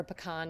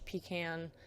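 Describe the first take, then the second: First: Pecan with a weak first syllable, 'ah' in the second; regional pronunciation of pecan. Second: Pecan with 'ee' first, 'can' as in tin can; regional pronunciation of pecan. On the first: Lecturer offering the other regional form, pecan said puh-KAHN. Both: Shown as a demonstration. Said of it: "depending on where you're from".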